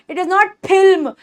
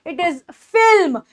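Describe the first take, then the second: First: Film as "philm" with an aspirated P; slow line, film begun with plosive P; wrong puffed P. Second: Film with a teeth-on-lip F; film begun "fff", no lip pop; true F sound. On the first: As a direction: pop the lips to begin film. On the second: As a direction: slowly, start film with friction. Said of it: "ऊपर के दांत". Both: Shown as a demonstration.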